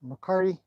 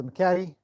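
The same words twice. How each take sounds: First: "McCarty" with an open AH and an R; alternate pronunciation. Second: "McCarty" with a flat A and no first R; alternate pronunciation. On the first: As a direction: say "McCarty" as muh-KAR-dee. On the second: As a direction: say "McCarty" as muh-KATT-ee. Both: Shown as a demonstration. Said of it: "depending on how you want to pronounce that".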